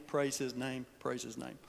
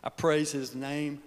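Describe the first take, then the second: First: Fading praise. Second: Said in the usual way. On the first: Real, not acted.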